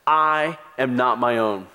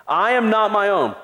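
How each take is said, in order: First: Said in the usual way. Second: AM lifted high with a falling end; stress on AM. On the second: Shown as a demonstration. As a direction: lean hard on "am" in "I am not my own".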